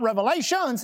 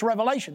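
First: Revelations said with a final s; wrong plural form. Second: Revelation said with no final s; correct singular form. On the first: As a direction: pronounce Revelations with the plural s, as the mistake. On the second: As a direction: pronounce Revelation in the singular, without the s. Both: Shown as a demonstration. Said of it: "It's not Revelations, it's Revelation".

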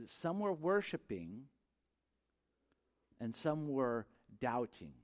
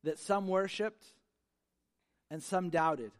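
First: "some were worshiping and some were doubting" slow, with "some" leaned on both times; slow stress on some. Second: "some worshiped" rising on "some", "some doubted" falling; stress on some. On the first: Preacher setting the worshipers against the doubters, slowly. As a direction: draw out "some" and "some", contrasting the two groups. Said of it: "what we see here is that it's". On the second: Preacher pointing the congregation to the two groups, stressed. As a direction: mark each "some" as a separate group. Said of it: "did you catch this?". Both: Shown as a demonstration.

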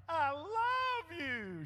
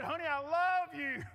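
First: Slow, higher, stretched declaration; drawn-out mock tender. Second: Said in the usual way. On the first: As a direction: drag it out like a crooning husband. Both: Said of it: "I said".

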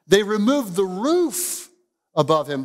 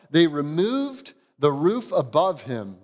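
First: "they removed the roof" drawn out slowly, higher, each word pressed; slow emphatic reading. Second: Said in the usual way. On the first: Shown as a demonstration. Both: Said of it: "You see that?".

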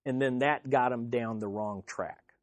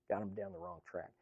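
First: Said in the usual way. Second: Softer, quicker repeat under the breath; quiet fast echo. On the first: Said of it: "Got 'em down the wrong track". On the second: Shown as a demonstration. Preacher repeats the warning to the congregation, quiet and fast. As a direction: drop it low and toss it off quickly. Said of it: "And then that got 'em down the wrong track".

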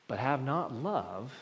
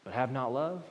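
First: "not" drawn out and rising, the whole phrase slow; slow down and hit "not"; "but have not love" slow, with "not" stretched; stress on NOT, slow. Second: The phrase ends on a rising "love"; stress on love. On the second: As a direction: lean on the word "love" with a lift at the end. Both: Shown as a demonstration.

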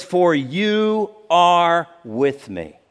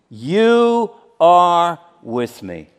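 First: "you" slowed and leaned on; slow stress on you. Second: "You" punched loud and slow; louder stress on you. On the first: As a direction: draw out "you are with me". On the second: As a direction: repeat it, heavier on "You". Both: Shown as a demonstration.

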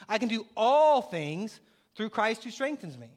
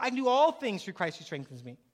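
First: Slow and louder, with "all" punched hard; stress on all. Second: Said in the usual way. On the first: Shown as a demonstration. Pastor proclaims the verse to the congregation, slow and emphatic. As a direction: declare the verse slowly, leaning on "all". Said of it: "emphatic verse declaration". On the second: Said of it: "verse recalled in passing".

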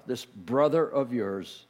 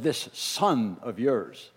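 First: Slow, lower, leaning on brother; stress on brother. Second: Slow, lower, disowning his brother; cold sneer. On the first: Father correcting his older son, stressing brother. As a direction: correct him gently, pressing brother. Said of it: "The father said". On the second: Older son refusing to call him brother, slow and cold. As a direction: spit out This son of yours slowly. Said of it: "The older brother said". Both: Acted.

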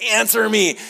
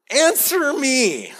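First: God demanding. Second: "Answer me." much higher and slow, drawn out; demanding God. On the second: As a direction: stretch "Answer me." out high and slowly as God. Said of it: "the next thing that God says is". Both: Retold or imitated.

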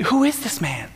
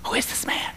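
First: Said in the usual way. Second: Hushed, breathless whisper. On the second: Retold or imitated. Disciples whispering about Jesus while he sleeps, hushed whisper. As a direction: whisper it so Jesus won't hear. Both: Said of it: "conversation about".

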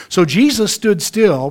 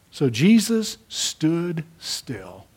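First: Louder and slow, leaning on Jesus; slow emphatic telling. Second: Very slow, each word apart; drawn out almost to a halt; hushed slow-down. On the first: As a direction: announce it like a turning point. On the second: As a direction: let the moment stop dead. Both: Shown as a demonstration.

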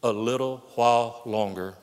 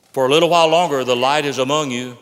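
First: Said in the usual way. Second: For a little while longer punched much louder, while hit hardest; stress on while. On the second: Shown as a demonstration. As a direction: hammer the word while home, loud. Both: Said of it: "You ought to underscore those words".

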